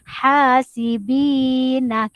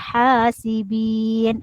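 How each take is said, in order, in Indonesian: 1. Vokal akhir dipertahankan, berakhir pada na. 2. Vokal akhir dibuang, berakhir pada n. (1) "kita baca huruf na ni kita tidak wakafkan" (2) "Sebab dia wakaf, dia matikan huruf di sini"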